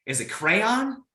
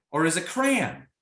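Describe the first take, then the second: First: "crayon" drawn out as CRAY-on with a rising question; asking the audience which they say, "crayon" as CRAY-on; two-syllable crayon. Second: "crayon" clipped to one syllable, cran, falling; asking the audience which they say, "crayon" as cran. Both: Shown as a demonstration. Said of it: "Which one's yours?".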